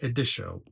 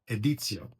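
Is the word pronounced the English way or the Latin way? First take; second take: English; Latin. First: The word is pronounced the English way. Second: The word is pronounced the Latin way. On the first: The speaker calls it wrong. "not editio" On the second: The speaker calls it right. "because it's Latin"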